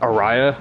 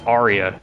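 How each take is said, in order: First: The name is pronounced with a 'ray' middle. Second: The name is pronounced with a 'ree' middle. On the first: The speaker calls it wrong. "I was pronouncing it Araya of Sorrow" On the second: The speaker calls it right. "it's Aria"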